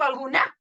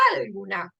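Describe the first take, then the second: First: "alguna" wrongly stressed on final NA; misplaced last-syllable stress. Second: "alguna" punched on AL, wrongly; misplaced first-syllable stress. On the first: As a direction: push the NA of "alguna" like "algu-NÁ". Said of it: "y no digo alguna". ("alguna" acentuada mal en la última, NA) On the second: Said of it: "No digo alguna". ("alguna" con el acento mal puesto en AL) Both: Shown as a demonstration.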